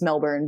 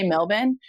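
First: It is said with an American pronunciation. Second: It is said with an Australian pronunciation.

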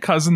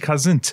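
First: The word ends plainly with an n sound. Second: The word ends with an added t sound. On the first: "they don't say cousin" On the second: "like to add T to the end of the word cousin"

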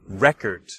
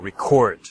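First: The stress is on the first syllable. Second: The stress is on the second syllable. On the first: It is a noun: a written document or a vinyl disc. "if I change the stress to the first syllable" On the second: It is a verb: to capture sound or video. "you can hear the stress on the second syllable"

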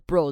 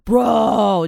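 First: It is said in a plain, normal voice. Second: It is said with an added guttural throat sound.

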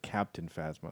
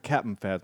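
First: 'Captain' is said in full, with both syllables. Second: 'Captain' is clipped to a short 'Cap'n'. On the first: The speaker calls it right. "instead of" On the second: The speaker calls it wrong. "he always calls her"

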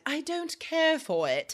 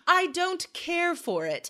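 First: It is said in a put-on British accent. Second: It is said in the speaker's usual American accent.

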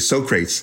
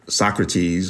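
First: The name is said in a movie character's way. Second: The name is said in the usual standard way.

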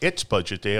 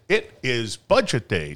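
First: It is said plainly, with the contraction. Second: It is said dramatically, with each word separate. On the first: The speaker calls it right. "I didn't say" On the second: The speaker calls it wrong. "to make it sound dramatic"

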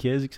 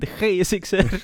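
First: The G is pronounced soft and smooth. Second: The G is pronounced hard and harsh. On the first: This is how the speaker says it. "bij mij de GSXR is" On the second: This is how the other host says it. "dat jij GSXR met een harde G uitspreekt"

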